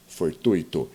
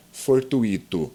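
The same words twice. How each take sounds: First: Fortuito said for-TÚI-to; correct diphthong. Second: Fortuito said for-tu-Í-to; mistaken hiatus. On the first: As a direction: stress TUI in fortuito, u and i in one syllable. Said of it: "Pronunciamos fortuito". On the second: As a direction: stress the i in fortuito, as its own syllable. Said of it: "que não se pronuncia fortuito". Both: Shown as a demonstration.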